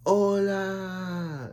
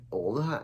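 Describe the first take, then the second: First: High, drawn-out sing-song hola; exaggerated hola. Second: Said in the usual way. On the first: Renzu greeting Belle out of nowhere, high drawn-out hola. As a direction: throw out "Hola!" high and stretched, playing it up. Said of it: "when Renzu's like". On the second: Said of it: "and then Han's like".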